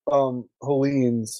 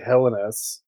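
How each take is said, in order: First: The word is pronounced the English way. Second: The word is pronounced the Greek way. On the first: "I call issue. That GMT game Hellenes" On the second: "which would be the Greek pronunciation"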